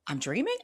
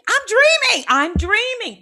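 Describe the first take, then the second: First: Quiet, doubtful I'm dreaming with a rise; wondering aloud in a small voice; hushed question. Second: Very high, loud shrieking of dreaming; overjoyed screaming; ecstatic shriek. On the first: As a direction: ask yourself softly, checking. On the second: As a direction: scream it in giddy relief. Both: Retold or imitated. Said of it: "This is how I was in the dream".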